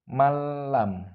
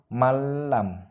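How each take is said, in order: No difference in how they are said.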